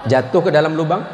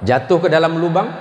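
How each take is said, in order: Both takes have the same delivery.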